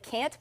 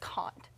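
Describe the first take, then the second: First: It is said with an American Missouri accent. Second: It is said with a British accent. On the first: "in Missouri, we tend to pull back and say" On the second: "but it's"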